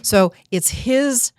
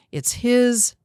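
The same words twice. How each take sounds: First: His lifted high and slow; so it's HIS, high and drawn out; stress on his. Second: His pitched high and held; it's HIS, pitched up; stress on his. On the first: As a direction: lean hard on his, dragging it out. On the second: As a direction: hit the word his. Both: Shown as a demonstration. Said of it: "coach stresses whose approval counts".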